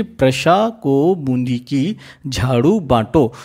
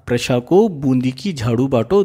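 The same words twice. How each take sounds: First: Slowly, word by word; spaced out slowly for learners to catch; slow dictation. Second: Said in the usual way. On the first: Shown as a demonstration. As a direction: dictate the mnemonic in separated chunks. First dictation of the memory trick.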